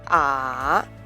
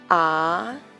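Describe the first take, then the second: First: The pitch dips low, then rises again. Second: The pitch rises from mid to high. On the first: "The third tone falls and then rises again" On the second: "The second tone is a rising tone"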